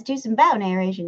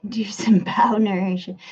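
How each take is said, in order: First: Said in the usual way. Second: Unvoiced whisper of the chat line. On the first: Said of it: "Clash with Bow says". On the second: Shown as a demonstration. Streamer whispering a chat message to viewers. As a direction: breathe the words without voice. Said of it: "did I nail it?".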